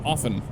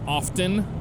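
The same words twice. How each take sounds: First: The T sound is left silent. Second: The T sound is clearly pronounced. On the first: The speaker calls it right. "the T is silent" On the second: The speaker calls it wrong. "a lot of people pronounce the T in it, but the T is silent. So it's not often"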